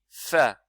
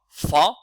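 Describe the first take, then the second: First: The letter is sounded light and thin. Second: The letter is sounded heavy and thick. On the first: The speaker calls it right. "on dit Fa" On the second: The speaker calls it wrong. "On ne dit pas Fa"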